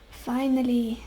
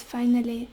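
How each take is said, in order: First: Finally said slowly as its own sentence; emphasized finally. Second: Said in the usual way. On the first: Shown as a demonstration. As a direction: lean on Finally, all in caps. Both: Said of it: "I would want to emphasize that word".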